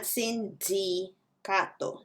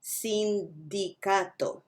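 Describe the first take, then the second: First: "sindicato" with a hard English d, almost j; "sindicato" mein galat angrezi d; wrong English-style d. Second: "sindicato" mein naram spanish d. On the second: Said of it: "not sindicato". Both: Shown as a demonstration.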